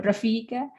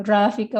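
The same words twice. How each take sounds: First: RAFIKA lightly stressed as ra-FI-ka; second-syllable stress. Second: RAFIKA lightly stressed as RA-fika; first-syllable stress. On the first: Teacher saying either name is fine, second-syllable stress. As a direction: lean a little on the FI of RAFIKA. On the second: Teacher saying either name is fine, first-syllable stress. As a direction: lean a little on the RA of RAFIKA. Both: Shown as a demonstration. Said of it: "doesn't have any stress".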